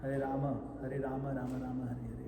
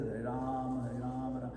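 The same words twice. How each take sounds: First: "Rama" with the short final ma still sounded; every syllable of "Hare Rama" kept, the ma short but there; clear Rama. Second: "Ram" said short so the final ma almost vanishes; clipped Ram. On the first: Shown as a demonstration. Teacher showing students the correct mantra, clear Rama. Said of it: "So we should say the Ma". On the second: Retold or imitated. Teacher imitating Prabhupada's quick chant, clipped Ram. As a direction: clip "Hare Ram" so it sounds like Ram Ram. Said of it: "Sounds like he's saying Ram Ram".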